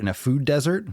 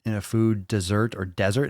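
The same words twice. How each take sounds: First: Pitched up high, rising like a baffled question; incredulous echo. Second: Said in the usual way. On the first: Shown as a demonstration. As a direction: repeat it as if you can't believe the phrase. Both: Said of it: "you mean dessert?".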